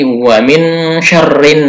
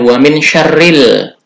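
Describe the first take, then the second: First: The last word ends with an n sound. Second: The last word ends with an l sound. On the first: The speaker calls it right. "tapi wa min syarrin" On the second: The speaker calls it wrong. "dibacanya bukan wa min syarril"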